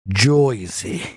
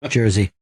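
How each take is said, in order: First: The first vowel sounds like 'oy' instead. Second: The first vowel is a plain 'er' sound.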